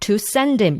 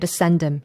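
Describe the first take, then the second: First: The word "to" is said fully and loudly. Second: The word "to" is short and weakened. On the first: The speaker calls it wrong. "이게 아니고" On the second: The speaker calls it right. "거의 do에 가까운 소리로, 또는 to에 가까운 소리로"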